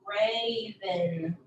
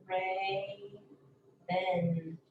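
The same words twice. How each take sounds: First: Said in the usual way. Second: "Raven" in two drawn-out, separate syllables; split syllables. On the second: Shown as a demonstration. Teacher showing the A sound, "Raven" split after it. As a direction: hold the first syllable of "Raven", pause, finish. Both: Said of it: "the part that makes the A".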